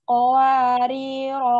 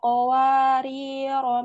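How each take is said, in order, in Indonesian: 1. Kata ini berakhir dengan vokal panjang. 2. Kata ini berakhir dengan vokal panjang.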